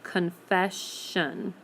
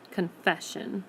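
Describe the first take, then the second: First: "confession" slowly, as confe... shun; "confession" sounded out in separated parts; split before shun. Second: Said in the usual way. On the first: Shown as a demonstration. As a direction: stretch "confession" with a long sh and full shun. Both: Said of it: "We're gonna hear the sh sound".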